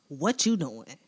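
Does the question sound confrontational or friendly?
confrontational. It is asked in a hostile, accusing tone. It implies the person is doing something wrong.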